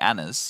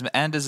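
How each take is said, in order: First: The D sound is left out of the name. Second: The D sound is pronounced in the name. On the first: The speaker calls it right. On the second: The speaker calls it wrong.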